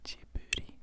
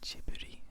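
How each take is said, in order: First: The name is said with a Japanese pronunciation. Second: The name is said with a Japanese pronunciation.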